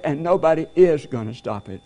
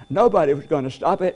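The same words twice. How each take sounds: First: "is" punched against the past tense; emphatic "is", stressed for contrast. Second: Said in the usual way. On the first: Real, not acted. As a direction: lean hard on the word "is". Past set against present.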